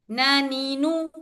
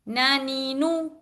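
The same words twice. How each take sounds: Both takes have the same delivery.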